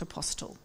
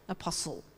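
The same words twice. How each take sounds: First: The T sound in the middle is pronounced. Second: The T sound in the middle is silent. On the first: The speaker calls it wrong. "not apostle" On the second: The speaker calls it right. "it's a silent T, like whistle"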